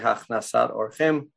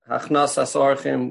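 First: The first word ends with a t sound. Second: The first word ends with an s sound. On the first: This is how the speaker personally says the term. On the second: This is how others say the term.

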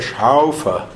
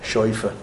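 First: The first vowel sounds like au. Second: The first vowel sounds like oi. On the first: This is how it is said in Germany. "In Germany, it's a Schaufer. It's an Au" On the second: This is how it was said in Poland. "in Poland, it was an Oi"

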